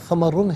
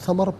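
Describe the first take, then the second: First: The word ends with a -run sound. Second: The word ends with a plain r sound. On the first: The reading continues without stopping. "समर समरुन है" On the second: The reader stops at this word. "वफ़ की सूरत में समर पढ़ा जाएगा"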